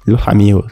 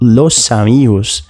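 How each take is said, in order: First: The s in los sounds like an h. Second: The s in los is a clear s sound. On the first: "esse S aspirado, quase que como um H" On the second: "se eu digo los amigos"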